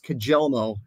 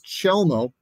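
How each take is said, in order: First: The name begins with a 'k' sound. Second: The name begins with a 'ch' sound. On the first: The speaker calls it wrong. "everyone says Kajelmo" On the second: The speaker calls it right. "the actual pronunciation, Scott, is Chelmo"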